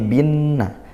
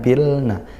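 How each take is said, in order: First: The L merges fully into a doubled N. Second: An L sound is heard before the N. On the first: The speaker calls it right. "tapi binna" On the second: The speaker calls it wrong. "bukan bilna"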